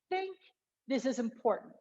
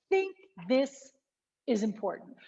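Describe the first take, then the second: First: The words run together without a pause. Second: There is a pause after the word this. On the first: "I would keep that closer" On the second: "you either have to pause after this"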